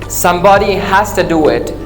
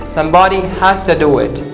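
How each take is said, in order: Both takes have the same delivery.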